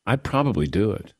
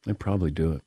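First: Said in the usual way. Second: Muffled, quiet, through hot food; talking around a hot bite; mouth full of hot food. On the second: Real, not acted. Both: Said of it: "Hot, hot, hot, hot".

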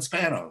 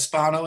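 First: "Spano" with a short a, SPAN-oh; "Spano" with the vowel of "span"; name pronunciation. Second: "Spano" with an open ah, SPAH-no; "Spano" with a long ah in the first syllable; name pronunciation. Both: Shown as a demonstration. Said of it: "How do you pronounce your".

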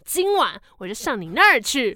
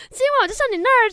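First: Said in the usual way. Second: Much higher, louder and fast, a sleazy leer; hammed-up creepy suitor. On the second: Stranger promising to visit Ibolyka tonight, hammed-up creepy leer. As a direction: overplay it as a gross creepy come-on. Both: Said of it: "好恶心哦".

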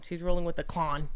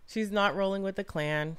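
First: Rolling stressed, rest plain. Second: Not leaned on, slowed down; stress on not. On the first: Correcting a friend, stress on rolling. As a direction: hit the word rolling. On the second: Correcting a friend, stress on not. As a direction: lean on the word not. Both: Shown as a demonstration.

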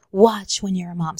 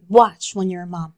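First: Said in the usual way. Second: A hushed, knowing whisper; whispered warning. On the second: Retold or imitated. Mom whispering a warning to her daughter. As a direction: breathe the warning like a secret. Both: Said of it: "my mom would always tell me".

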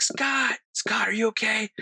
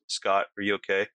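First: High-pitched calling out for a friend; retold yelling. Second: Imitating an unbothered friend; low-key, casual check-in, no urgency at all; mellow, calm. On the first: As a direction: re-enact an urgent yell, voice pitched way up. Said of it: "I'm, like, yelling for Scott". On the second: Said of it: "in the most mellow, calm voice".

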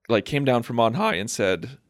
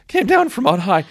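First: Voice cracking. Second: High laughing repeat; laughing retake. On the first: Real, not acted. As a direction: voice breaks mid-phrase. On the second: Shown as a demonstration. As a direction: laugh through the words. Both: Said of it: "my voice just cracked".

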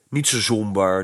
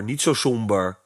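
First: "niet" lifted as the key word in "niet zo somber"; stress on niet. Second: "zo" lifted as the key word in "niet zo somber"; stress on zo. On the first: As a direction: lean on "niet", keep "zo" light, a gentle comfort. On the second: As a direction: lean on "zo", keep "niet" light, soothing repeat. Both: Acted. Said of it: "troostte Kees".

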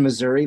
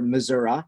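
First: Said in the usual way. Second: Missouri ending in "uh", as "Mizzour-uh"; local pronunciation. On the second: Shown as a demonstration. Former resident corrects to local form, Missouri said "Mizzour-uh". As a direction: say Missouri the local way, final vowel a relaxed "uh". Local variant of the state name.

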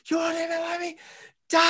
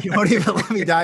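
First: High, mock anguished cry; retold scream at God. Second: Loud, fast mock outrage; angry retold cry. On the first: Man retelling screaming at God after surviving. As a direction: hurl it upward at God in disbelief. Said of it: "I was screaming at God". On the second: Man laughing while replaying his shout at God. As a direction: fling it back at God, laughing. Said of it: "I was so angry".

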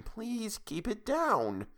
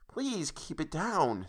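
First: Slow, soft, higher hush; urging quiet so the boy won't wake. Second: Slow, soft mild hush, half-voiced; a lightly voiced grandmother urging quiet. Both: A narrator's reading. Grandmother hushing late-night quarrel.

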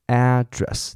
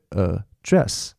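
First: "address" as a noun, AD-dress, first syllable long and stressed; "address" with the weight on AD, falling away after. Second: Verb "address", transcribed "呃，dress", said uh-DRESS; short uh, then a slow, stressed DRESS in "呃，dress"; stress on second syllable. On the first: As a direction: hit the front of "address": AD-dress. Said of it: "当它是名词的时候". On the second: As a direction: push the weight of "呃，dress" onto the final DRESS. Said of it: "它的重音会跑到后面". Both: Shown as a demonstration.

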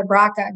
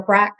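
First: "braca" said as one word, two syllables; two-syllable acronym. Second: "brac" said as one short syllable; one-syllable acronym. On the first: Guest unsure of a gene's name, "braca" as two syllables. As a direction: say "braca" with a second syllable on the end. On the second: Guest offering another gene pronunciation, "brac" as one syllable. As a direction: say "brac" without a final vowel. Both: Shown as a demonstration. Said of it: "I'm not sure how you pronounce it".

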